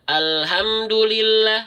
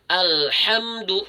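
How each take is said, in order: First: The h is a plain, light breath. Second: The h is a strong breath from the throat. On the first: The speaker calls it wrong. "kesalahan umum" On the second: The speaker calls it right. "harusnya alhamdu"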